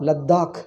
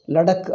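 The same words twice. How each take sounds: First: The d sound is held and doubled. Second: The d sound is short and single. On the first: This is how Hindi speakers say it. The speaker calls it right. "In Hindi, they pronounce it as a Ladakh... da is double" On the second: This is how South Indians say it. The speaker calls it wrong. "our people say, South Indians pronounce"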